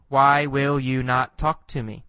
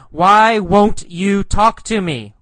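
First: Said in the usual way. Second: High, loud demand for an answer; raised voice, falling at the end; yelled question. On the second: Acted. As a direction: call it out insistently. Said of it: "He yells".

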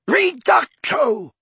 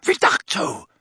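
First: "Reducto" high, slow, loud; shouted spell. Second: Voiceless "Reducto"; breathy hushed spell. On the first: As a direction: cry out "Reducto" stretched. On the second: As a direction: rush "Reducto" out unvoiced. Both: A narrator's reading. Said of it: "a voice shouted".

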